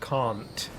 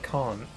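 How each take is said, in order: First: The final T is clearly and fully pronounced. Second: The final T is glossed over, barely pronounced.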